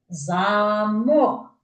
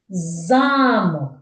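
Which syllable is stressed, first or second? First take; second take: second; first. First: The stress is on the second syllable. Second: The stress is on the first syllable. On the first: "то наголос на другий склад" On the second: "на перший, тому що я його голосніше вимовляю"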